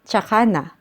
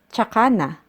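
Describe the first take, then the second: First: The opening is shortened to a 'ts' sound. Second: The opening is shortened to a 'ts' sound.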